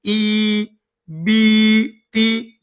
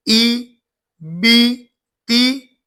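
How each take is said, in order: First: Slow, stretched "ई बी ती" with long ee sounds; overly long vowels in "ई बी ती" as a teacher's wrong demo; wrong drawn-out vowels. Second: "ई बी ती" said with crisp short ee sounds; correct, quick ee in "ई बी ती" as a teacher's right demo; short clear ee vowels. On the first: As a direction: drag out the vowels in "ई बी ती" as the wrong example. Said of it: "ये गलत है". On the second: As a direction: keep the ee in "ई बी ती" short and clean. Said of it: "ये मारूफ आवाज है". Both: Shown as a demonstration.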